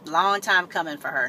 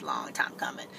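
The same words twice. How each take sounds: First: Said in the usual way. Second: Whispered, almost no voice "long time coming"; whispering. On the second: Real, not acted. Repeats phrase in a whisper.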